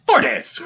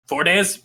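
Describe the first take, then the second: First: High goblin voice, falling at the end; goblin confirming. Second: Unsure goblin, rising on "days"; goblin asking. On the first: Second goblin confirms the estimate to the first, high goblin voice. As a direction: agree in a much higher goblin pitch. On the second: Goblin asks the other goblin for agreement, questioning goblin. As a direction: check with a fellow goblin, "days" lifted as a question. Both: Acted. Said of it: "he looks at the other goblin".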